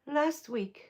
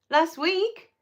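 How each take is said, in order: First: "Last week." said softer with a falling tune; falling confirmation. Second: "Last week?" asked with a rising tune, checking; rising question. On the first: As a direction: settle it, voice dropping at "week". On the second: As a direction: question the date, pitch going up at "week". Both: Real, not acted.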